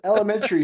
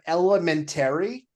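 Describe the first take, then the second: First: The word is said as one smooth unit. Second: The word is split into three separate parts. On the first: The speaker calls it right. "Elementary is fine" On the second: The speaker calls it wrong. "you've made three words out of one"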